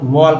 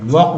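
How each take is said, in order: First: वॉल्क with the L pronounced; L sounded. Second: वॉक with no L sound; L left silent in वॉक. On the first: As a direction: put an audible L before the K in वॉल्क. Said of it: "वॉक, नहीं कि". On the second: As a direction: go from the long vowel straight to K in वॉक. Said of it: "इसका उच्चारण होता है वॉक". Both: Shown as a demonstration.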